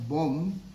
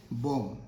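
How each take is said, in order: First: 'bomb' with the final b wrongly pronounced; B sounded at the end. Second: 'bomb' ending cleanly on m; silent B. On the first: Teacher shows learners the mistake, B sounded. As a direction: say 'bomb' voicing a b after the m. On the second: Teacher models for learners, silent B. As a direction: say 'bomb' with no b sound after the m. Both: Shown as a demonstration. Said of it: "B is silent".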